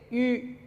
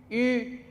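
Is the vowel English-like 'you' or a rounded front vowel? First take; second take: rounded front; rounded front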